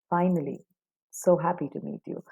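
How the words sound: The tone is flat and clearly unhappy. The speaker is only being polite and is not glad.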